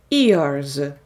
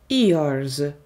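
The two takes are said the same way.

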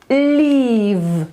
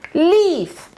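First: The final consonant is voiced, like v. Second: The final consonant is voiceless, like f. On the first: It means to go away. The speaker calls it right. "To słowo poprawnie wypowiedziane będzie brzmiało leave" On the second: It sounds like the word for a tree leaf. The speaker calls it wrong. "Chcielibyśmy powiedzieć leave"

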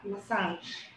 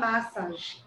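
First: The stress is on the second syllable. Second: The stress is on the first syllable. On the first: The speaker calls it right. "a sílaba forte é a segunda" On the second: The speaker calls it wrong. "a gente pode errar e falar massage. Tá errado"

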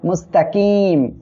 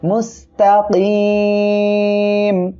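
First: The vowel before the final m is kept short. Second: The vowel before the final m is stretched long. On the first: The speaker calls it wrong. "কেউ যেন এখানে বলবেন না মুস্তাকিম, এটা বললে কিন্তু ভুল হবে" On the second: The speaker calls it right. "তিন আলিফ টেনে পড়তে হবে"

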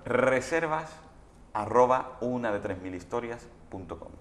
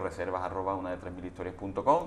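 First: It is said slowly. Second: It is said fast.

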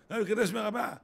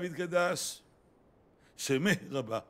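First: Sounds are swallowed and the words run together. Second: Every syllable is fully and clearly articulated. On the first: The speaker calls it wrong. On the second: The speaker calls it right.

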